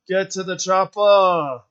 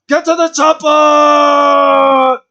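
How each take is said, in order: First: The line is delivered flatly, without any energy. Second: The line is delivered with intense, forceful energy. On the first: It is a weak, unenthusiastic imitation. The speaker calls it wrong. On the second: It is the iconic, well-acted version. The speaker calls it right.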